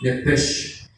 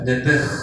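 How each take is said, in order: First: The word ends with an sh sound. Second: The word ends with a throaty h sound. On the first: "N de nana, E de Enrique, P de papá, E de Enrique, S de sapo, H de huevo" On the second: "se pronuncia en el original hebreo nepej, porque la S H ... se pronuncia como con J"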